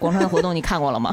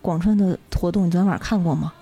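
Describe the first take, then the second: First: It sounds indifferent and perfunctory. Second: It sounds bored and disappointed.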